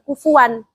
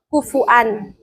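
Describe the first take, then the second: First: A w sound joins the two vowels. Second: A glottal stop separates the two vowels. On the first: This is one narrator's reading of the verse. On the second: This is another narrator's reading of the verse. "pakai hamzah"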